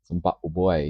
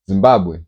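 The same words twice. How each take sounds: First: It is said in a British accent. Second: It is said in a Zimbabwean accent.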